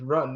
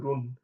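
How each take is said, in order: First: It is said with English pronunciation. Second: It is said with non-English pronunciation. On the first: The speaker calls it wrong. "do not pronounce it in English run" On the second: The speaker calls it right. "but the way pronounced as run"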